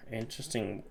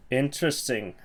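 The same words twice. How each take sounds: First: Softly muttered Interesting; quiet. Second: Said in the usual way. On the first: Real, not acted. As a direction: drop the word Interesting to a murmur. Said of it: "second take much softer". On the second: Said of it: "first take louder".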